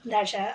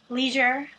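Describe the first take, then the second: First: It is said in a British accent. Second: It is said in an American accent.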